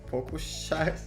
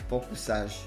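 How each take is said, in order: First: The middle consonant is an sh sound. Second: The middle consonant is a plain s sound. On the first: "Because the S you told me is like sh" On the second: "I just read it like focusage"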